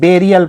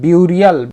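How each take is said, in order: First: The first syllable sounds like 'beh'. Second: The first syllable sounds like 'byoo'. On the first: The speaker calls it right. "बेरियल पढ़ेंगे" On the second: The speaker calls it wrong. "ये नहीं पढ़ेंगे"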